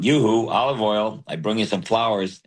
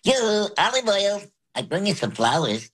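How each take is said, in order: First: It is said in a low voice. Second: It is said in a high voice.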